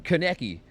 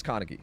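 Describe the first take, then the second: First: Kaneki as kuh-NECK-ee, middle stressed; KANEKI the unheard way. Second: Kaneki as KAH-nuh-kee, stress on the first syllable; KANEKI as heard. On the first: Streamer disputing what the clip says, Kaneki stressed on the middle. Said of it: "I'm not hearing Kaneki". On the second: Streamer settling on what he hears, Kaneki front-stressed. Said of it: "I think it's Kaneki". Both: Shown as a demonstration.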